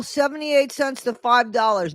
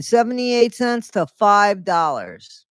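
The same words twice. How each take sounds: First: Said in the usual way. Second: "Seventy-eight cents to five dollars" spaced out slowly, each number leaned on; slow emphatic repeat. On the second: Real, not acted.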